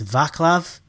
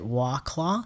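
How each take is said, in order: First: The name begins with a V sound. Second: The name begins with a W sound. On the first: The speaker calls it right. "it's like a V sound" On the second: The speaker calls it wrong. "is it Waclaw?"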